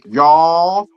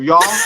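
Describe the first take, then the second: First: The word is stretched out in a drawl. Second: The word is said short without drawl. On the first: "they stretch their words out more" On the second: "instead of"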